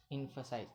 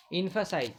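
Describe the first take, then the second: First: Murmured low, almost to himself; a soft first reply to his own question; quiet answer. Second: Said in the usual way. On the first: Shown as a demonstration. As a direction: drop the voice and answer softly. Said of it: "क्या बताएं?". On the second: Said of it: "क्या बताएं भाई?".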